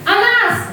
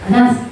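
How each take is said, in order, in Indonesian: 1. Namanya dibentak keras, seperti memarahi. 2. Namanya diucapkan dengan tegas dan mantap. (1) "kalau kita menghukum kita pasti menghardik" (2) "kalau posisinya pemantau itu tegas"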